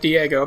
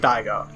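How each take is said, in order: First: The first syllable sounds like 'dee'. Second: The first syllable sounds like 'dye'. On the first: The speaker calls it wrong. "As a kid, I pronounced it Diego because I knew nothing about Japanese" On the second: The speaker calls it right. "this is definitely Daigo"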